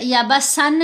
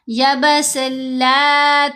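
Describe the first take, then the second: First: The n is heard before the next word. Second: The n merges fully into the l sound. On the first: The speaker calls it wrong. "या बस सन नहीं करेंगे" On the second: The speaker calls it right. "सीन को लाम से मिलाएंगे, इदगाम है, गुन्ना नहीं करना"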